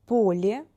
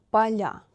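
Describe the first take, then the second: First: Поле with soft l, stressed first о, rising. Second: Поля with soft l, stressed final я, falling. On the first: Teacher models the singular for learners, soft L. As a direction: say POlye, palatalizing л. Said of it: "L is soft because of е". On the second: Teacher models the plural for learners, soft L. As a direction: say paLYA, palatalizing л. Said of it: "L is soft again". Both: Shown as a demonstration.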